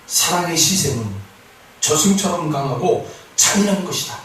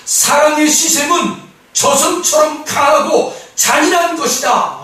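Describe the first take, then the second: First: Said in the usual way. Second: Loud, high, slow verse proclamation; slow, ringing, high declaration; forceful proclamation. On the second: Real, not acted. Verse proclaimed, then restated quietly.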